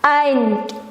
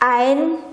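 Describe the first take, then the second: First: The final d is strong and clearly heard. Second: The final d is weak and barely heard. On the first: The speaker calls it right. "D-nya harus agak-agak terasa" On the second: The speaker calls it wrong. "Kadang jadi ein, tapi D-nya seharusnya lebih tebal gitu"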